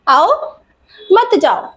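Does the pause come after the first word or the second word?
first word. There is a pause after the first word. Come here; don't go. "यहाँ पर आ जाओ तुम, मत जाओ"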